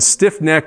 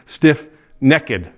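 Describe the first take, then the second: First: The word is said with two syllables. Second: The word is said with three syllables. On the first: "Instead of two syllables" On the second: "they pronounce it with three syllables"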